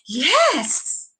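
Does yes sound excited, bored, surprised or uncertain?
excited. It is said in an excited way.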